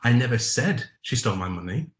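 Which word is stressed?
said. The stress is on the word said.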